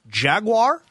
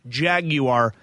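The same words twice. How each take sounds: First: The ending is said in the American way. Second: The ending is said in the British way. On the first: "It's Jaguar" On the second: "or the British version"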